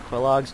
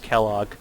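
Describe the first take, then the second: First: The name starts with a kw sound. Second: The name starts with a plain k sound. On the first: The speaker calls it wrong. "I might be mispronouncing that" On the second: The speaker calls it right. "It could be just Kellogg. You don't pronounce the U"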